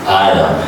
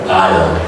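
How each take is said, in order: No difference in how they are said.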